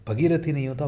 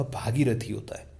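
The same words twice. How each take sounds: First: भगीरथी with a short first a. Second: भागीरथी with a long open first aa. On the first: Teacher models the wrong भगीरथी with short a. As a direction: clip the first vowel of भगीरथी. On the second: Teacher models the correct भागीरथी with long aa. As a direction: stretch the first vowel of भागीरथी. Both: Shown as a demonstration.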